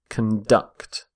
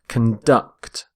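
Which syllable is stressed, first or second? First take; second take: second; second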